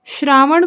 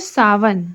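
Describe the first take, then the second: First: It starts with shr and has a retroflex n. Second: It starts with plain s and has a v. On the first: This is the standard Hindi form. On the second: This is the Chhattisgarhi form.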